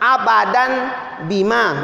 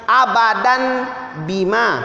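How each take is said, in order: Both takes have the same delivery.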